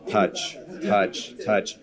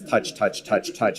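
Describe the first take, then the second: First: The words are spaced out slowly. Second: The words follow each other quickly. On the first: The player touches the ball less often. "instead of" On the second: The player touches the ball more often. "We've reduced that so that it's"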